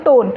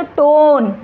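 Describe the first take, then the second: First: Said in the usual way. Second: टोन loud, with a long stretched vowel; spoken tone demo. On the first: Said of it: "अगर मैं इसको पढ़ रही हूँ". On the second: Shown as a demonstration. Teacher showing tone exists only in speech, टोन loudly drawn out. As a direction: stretch टोन right out and push it louder. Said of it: "लेकिन जब अगर मैं बोलूँगी तो".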